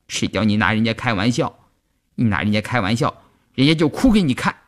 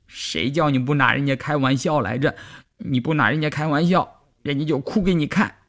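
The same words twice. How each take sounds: First: Put-on mildly resentful girlish scolding; through gritted teeth. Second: Put-on higher-pitched, whiny girlish complaint; tearful. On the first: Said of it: "季节狠狠地咬牙说". (咬着牙略带恨意地说) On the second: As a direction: complain as if crying, pitch raised. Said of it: "季节一边哭一边说". (带着哭腔委屈地说) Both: A narrator's reading.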